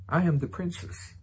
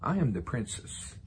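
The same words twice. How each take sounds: First: Mock princess voice. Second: Said in the usual way. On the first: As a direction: play a ninety-year-old acting grand. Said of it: "Coming from the lips ... ninety-year-old woman". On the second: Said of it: "but now Sarah the princess".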